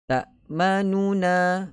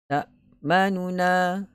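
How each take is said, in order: No difference in how they are said.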